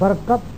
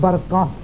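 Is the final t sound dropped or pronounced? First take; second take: pronounced; dropped. First: The word ends with a clear final t sound. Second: The word ends without a final t sound. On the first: This is how an Urdu speaker pauses on it. "Urdu वाला वक्त करता है तो वो ता पड़ता है" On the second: This is how an Arabic speaker pauses on it. "जब अरबी वक्त करेगा तो ता को हा करता है"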